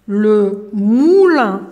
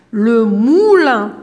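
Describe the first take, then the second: First: Moulin said very slowly again; slow repeated naming. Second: Moulin drawn out very slowly, louder; teacher stretches moulin for pupils to hear the ou; slow louder naming. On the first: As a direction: hold the ou in moulin. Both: Shown as a demonstration. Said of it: "سمعنا حرف الأو مع الأم".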